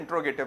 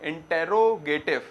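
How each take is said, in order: First: One syllable is dropped, giving 'intro'. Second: Every syllable is said in full. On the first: This is how most people say it. "मगर pronunciation में इंट्रोगेटिव बोला जाता है ज्यादातर" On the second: This follows the spelling. "Spelling तो क्या है इंटेरोगेटिव"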